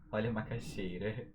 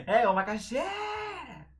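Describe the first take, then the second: First: Said in the usual way. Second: High, loud, drawn-out street cry; vendor's call. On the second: Shown as a demonstration. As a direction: hawk it, stretching XEI in macaxeira.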